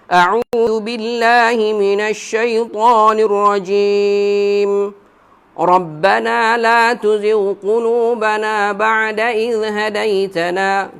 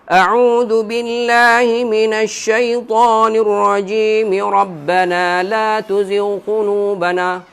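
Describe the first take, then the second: First: There is a pause after 'rajim'. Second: It runs straight on after 'rajim'.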